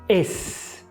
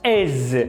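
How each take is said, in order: First: The final consonant is a voiceless S sound. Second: The final consonant is a voiced Z sound. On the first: The speaker calls it wrong. "não é is" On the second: The speaker calls it right. "é pronunciado com Z. Esse S é sempre vozeado"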